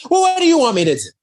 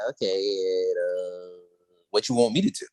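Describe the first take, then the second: First: High, loud, fast acted retort; exasperated. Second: Low, hesitant acted reply; unimpressed. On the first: Grace retorts to visitors asking for help, exasperated. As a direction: fire it off pitched way up and rapid. Same reply redone, heightened. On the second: Grace answers visitors asking for help, unimpressed. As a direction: let it out low and unbothered. Retold Grace hearing their request.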